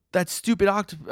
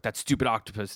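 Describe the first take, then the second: First: Voicing spider guy. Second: Said in the usual way. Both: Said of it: "the spider guy's like".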